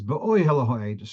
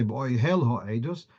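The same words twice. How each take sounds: First: Be'oihel stressed on the oi; Be'oihel Ha'edus with the stress early, on oi; penultimate stress. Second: Be'oihel stressed on the final hel; Be'oihel Ha'edus with the stress late, on hel; wrong final stress. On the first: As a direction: lean on the oi in Be'oihel. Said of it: "the stress is on the penultimate". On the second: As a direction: push the weight onto hel in Be'oihel. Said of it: "you wouldn't say". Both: Shown as a demonstration.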